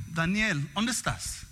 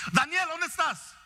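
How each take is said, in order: First: Gentle parent call. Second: Higher, sharp parent call of the name; angry parent call. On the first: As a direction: ask kindly where the child is. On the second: Parent entering a room calling the son, sharp angry call. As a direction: bark the child's name from the doorway. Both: Retold or imitated. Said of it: "Nomás en el tono".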